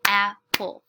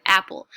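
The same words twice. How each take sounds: First: "Apple" broken into two separate beats, AP, PLE; syllable by syllable. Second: Said in the usual way. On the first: Shown as a demonstration. Teacher shows students how to clap a word, "Apple" split by syllable. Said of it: "now I'm gonna clap the word". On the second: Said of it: "I'm reading the word".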